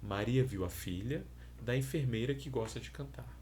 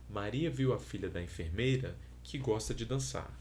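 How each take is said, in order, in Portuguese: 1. Há uma pausa depois de filha. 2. Há uma pausa depois de enfermeira. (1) "com uma pausa após o primeiro elemento" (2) "com uma pausa após o segundo possível, o segundo elemento"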